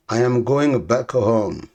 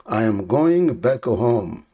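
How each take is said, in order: Both takes have the same delivery.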